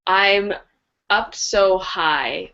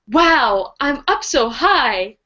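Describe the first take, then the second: First: It is said in a flat, plain way. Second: It is said in a cutesy, excited way.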